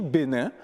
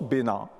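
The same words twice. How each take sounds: First: Said in the usual way. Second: "Bénin" pronounced like "Bénan"; "in" devient "an". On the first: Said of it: "pour dire Bénin". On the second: Shown as a demonstration. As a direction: open the nasal of "Bénin" to "an". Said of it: "le son in devient an". (« Bénin » prononcé « Bénan »)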